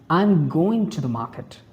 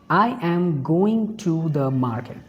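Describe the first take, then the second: First: Only going and market are stressed. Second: Every word gets equal, full stress.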